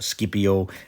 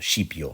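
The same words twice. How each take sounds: First: It uses a classical Latin pronunciation. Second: It uses an Italian-style pronunciation. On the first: "more in keeping with uh, classical Latin pronunciation" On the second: "a slightly more Italianate uh, pronunciation"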